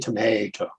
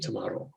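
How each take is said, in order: First: It is said with an American pronunciation. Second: It is said with an Australian pronunciation. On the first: "here we don't say tomato" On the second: "we say tomato"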